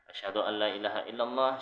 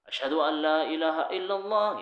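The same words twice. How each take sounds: First: It is said in a lowered, quiet voice. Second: It is said in a raised, louder voice.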